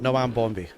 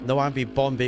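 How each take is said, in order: First: No extra syllable follows 'Noam'. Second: An extra 'ee' syllable follows 'Noam'. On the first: The speaker calls it right. "I think that's how I say it properly" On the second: The speaker calls it wrong. "excuse me. I keep calling you Noambi Bambi"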